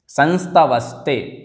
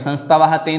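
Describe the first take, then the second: First: The words are joined, with an 's' sound linking them. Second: The words are split, with an 'h' sound between them. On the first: The speaker calls it right. "संस्तवस्ते ऐसा ही पढ़ें" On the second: The speaker calls it wrong. "ऐसा संस्तवाह ते ना बोलें"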